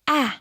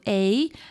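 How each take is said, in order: First: The vowel is said as a short sound. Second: The vowel is said as a long sound. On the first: "What sound does A make?" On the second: "the long vowel sounds"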